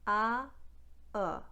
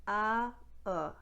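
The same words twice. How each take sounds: No difference in how they are said.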